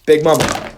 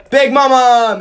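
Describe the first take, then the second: First: Said in the usual way. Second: Big Mama! yelled much higher and louder; loud cheer. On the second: Real, not acted. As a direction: shout it out to will the dice. Cheering his model before rolls.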